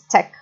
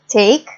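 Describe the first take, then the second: First: The vowel is one steady sound. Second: The vowel glides between two sounds. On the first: "one sound. It's no longer a, mon a diphthong, okay, two sounds, but a monophthong" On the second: "you pronounce two vowels"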